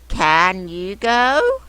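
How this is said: It is said in a questioning tone. The speaker calls it right. "we change our voice when we're asking questions"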